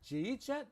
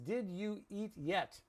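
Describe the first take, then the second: First: The words blur together into two short syllables. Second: Each of the four words is said separately. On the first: "That's everyday pronunciation in connected speech" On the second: "it means"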